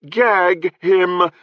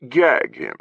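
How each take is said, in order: First: Gag him, each word crisp, high and loud; enunciated. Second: Gag him tossed off lightly; casual order. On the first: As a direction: spell out gag and him separately. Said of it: "enunciating each word". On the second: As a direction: dismiss it, an offhand command. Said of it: "said with a casual wave". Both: Acted.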